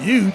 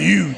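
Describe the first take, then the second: First: The word starts with a clear H sound. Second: The word starts without an H sound. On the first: This is how the speaker says it. "I make the H come out" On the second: This is how many other people say it. "a lot of people just go"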